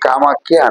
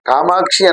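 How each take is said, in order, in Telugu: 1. మధ్య హల్లును 'khy' అని పలుకుతారు. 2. మధ్య హల్లును 'ksh' అని పలుకుతారు. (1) "కామాఖ్య అంటారు" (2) "కామాక్షి అనకుండా"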